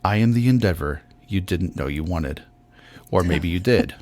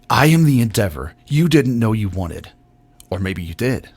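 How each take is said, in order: First: It is read in a restrained, moderate way. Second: It is read in a hyped, over-the-top way.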